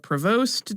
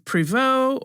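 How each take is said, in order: First: The name is said with an American pronunciation. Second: The name is said with a French pronunciation. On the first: "or American" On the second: "depending on how you pronounce it, if you're French"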